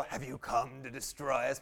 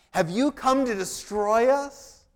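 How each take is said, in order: First: Lower, menacing demon impression. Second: Loud, slow scripture reading of the demon's cry; demon's words read out. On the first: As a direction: growl it like a movie demon. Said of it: "I would just wanna go". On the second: Acted. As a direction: declaim the demon's challenge slowly and loudly. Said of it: "This is what the demon says".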